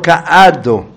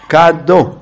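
First: The aleph is pronounced separately after the prefix. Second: The aleph is swallowed into the prefix. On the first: The speaker calls it wrong. "לא" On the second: The speaker calls it right. "מבלעים את א'"

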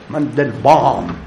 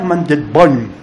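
First: The name is said in a German-style accent. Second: The name is said in a plain local accent.

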